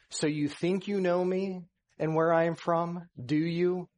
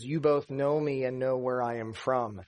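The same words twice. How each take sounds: First: So you think you know me, rising ironic questioning tune. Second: Said in the usual way. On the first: Shown as a demonstration. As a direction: challenge them, doubting they know. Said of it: "or stating a question". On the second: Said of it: "Jesus isn't making a statement".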